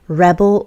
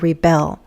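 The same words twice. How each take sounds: First: The stress is on the first syllable. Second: The stress is on the second syllable. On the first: It names a person who resists. "it could be a noun" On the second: It names the act of resisting. "or a verb"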